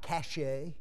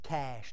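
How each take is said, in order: First: The word is said as two syllables. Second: The word is said as one syllable. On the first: The speaker calls it wrong. "not cachet" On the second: The speaker calls it right. "that's the way you say it"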